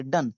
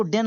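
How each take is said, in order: First: डन with a short "uh" vowel; correct pronunciation demo. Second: डेन, d-d-e-n misread with an "e" vowel; wrong pronunciation demo. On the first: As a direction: say the syllable as "dun", not "den". (सही उच्चारण "डन", छोटा अ) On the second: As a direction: say the syllable as "den". (गलत उच्चारण "डेन") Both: Shown as a demonstration. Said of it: "को डेन नहीं पढ़ेंगे".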